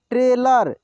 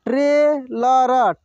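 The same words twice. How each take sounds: First: Said in the usual way. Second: trailer drawn out slowly, syllable by syllable; slow sounding out. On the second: Shown as a demonstration. Teacher slowly sounds out trailer for students. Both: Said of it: "एक एक मात्रा को अलग अलग करके".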